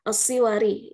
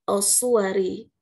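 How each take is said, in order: First: I after s, then a wa syllable follows. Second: U after s, then a wa syllable follows. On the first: "dengan kasrah pada sad" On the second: "dengan dhammah pada sad tasydid dan fathah pada kata waw"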